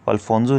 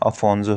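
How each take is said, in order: First: An L sound comes before the F. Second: No L sound comes before the F. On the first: The speaker calls it wrong. "अल्फोंसो नहीं है" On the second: The speaker calls it right. "अफोंसो है"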